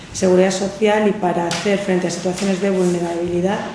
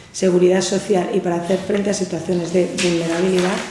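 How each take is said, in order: The two takes are said the same way.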